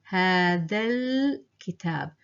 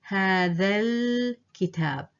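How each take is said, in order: The two takes are said the same way.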